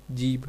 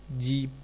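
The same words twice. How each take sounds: First: Said in the usual way. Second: जीप as "jeeb", the word for tongue without aspiration; deaspirated dialect form. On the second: Shown as a demonstration. Lecturer showing Kauravi speech, जीप with unaspirated ending. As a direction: end जीप without a breathed bh. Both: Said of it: "महाप्राण के अल्पप्राण कर देने".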